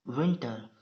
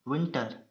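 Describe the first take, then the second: No difference in how they are said.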